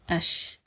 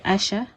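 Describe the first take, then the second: First: It ends on the sh sound, no vowel. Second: A vowel follows the sh sound. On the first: The speaker calls it right. "it's ash" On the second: The speaker calls it wrong. "you do not say asha"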